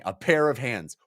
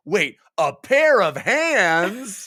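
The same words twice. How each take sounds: First: Said in the usual way. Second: Higher, drawn-out incredulous double take; mock sudden realization. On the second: Troll realizing what grasped him, hammed-up surprise. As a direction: stretch out PAIR OF HANDS in comic disbelief.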